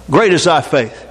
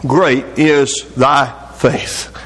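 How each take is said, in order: First: Said in the usual way. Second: Very slow, low solemn delivery; slow solemn praise. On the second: Retold or imitated. Jesus answers the persistent woman, slow solemn praise. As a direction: draw out each word of the praise with weight.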